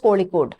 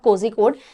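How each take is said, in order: First: The middle consonant is an l-like sound. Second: The middle consonant is a zh sound. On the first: The speaker calls it right. "जेड एच आता है तो उसको ल की तरह pronounce किया जाता है" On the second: The speaker calls it wrong. "This is not कोझिकोड"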